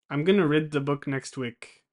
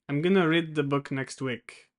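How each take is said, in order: Both takes have the same delivery.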